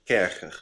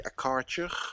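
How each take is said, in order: First: It is pronounced the German way. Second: It is pronounced the American way. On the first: The speaker calls it right. "It's German" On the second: The speaker calls it wrong. "or as your Americans say"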